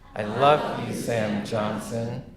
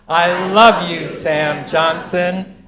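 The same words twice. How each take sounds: First: It is said at the quietest volume. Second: It is said at the loudest volume.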